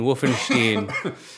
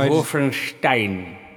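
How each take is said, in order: First: The ending sounds different from Frankenstein's. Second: The ending sounds like Frankenstein's. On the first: The speaker calls it wrong. "a lot of people go Stein" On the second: The speaker calls it right. "It's no, Wolfenstein. Like Frankenstein"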